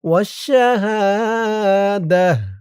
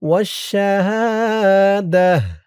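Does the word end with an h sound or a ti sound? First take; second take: h; h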